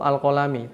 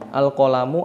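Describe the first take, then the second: First: The word ends with an i vowel. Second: The word ends with a u vowel. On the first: "tidak membaca al-qalami" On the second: "Saya tidak membaca al-qalamu"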